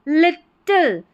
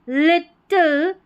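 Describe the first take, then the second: Both takes have the same delivery.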